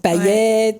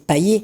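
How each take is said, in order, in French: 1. Le t final est clairement prononcé. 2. Le t final est muet. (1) "c'est vrai qu'à la Réunion, euh, voilà, enfin on dit" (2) "les gens vont prononcer"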